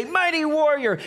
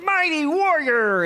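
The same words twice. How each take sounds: First: Mock-grand "Mighty warrior"; grand angel greeting. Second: High, slow booming proclamation; mock-grand "Mighty warrior"; grand angel greeting. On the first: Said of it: "Gideon hears the angel of the Lord say". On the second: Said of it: "the angel of the Lord is like". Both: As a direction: hail him like a hero.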